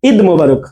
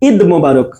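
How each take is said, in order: The two takes are said the same way.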